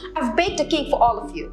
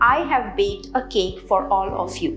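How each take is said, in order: First: The words are reduced and linked together. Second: Each word is said fully and separately. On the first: The speaker calls it right. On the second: The speaker calls it wrong.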